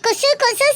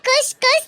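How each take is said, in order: First: Each name ends with a full final vowel. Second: Each name ends with a clipped consonant sound. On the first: The speaker calls it wrong. "நீங்க என்ன குசு குசு சொல்லி கூப்பிட்டீங்கன்னா நான் கண்டிப்பா உங்களை வீட்டை விட்டு அனுப்பிடுவேன்" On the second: The speaker calls it right. "ஒழுங்கா குஸ் குஸ் சொல்லி கூப்பிடுங்க"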